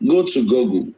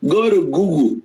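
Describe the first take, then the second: First: Said in the usual way. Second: A light British accent on Go to Google, Google said as "Guugul". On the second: Shown as a demonstration. Host redoing the line for viewers in a light British accent. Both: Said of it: "let me use the British accent".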